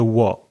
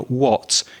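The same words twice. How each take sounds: First: The final t is a glottal stop in the throat. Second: The final t is released through the teeth. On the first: "you hear what, what. So it's getting stuck in the throat" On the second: "So you don't hear what"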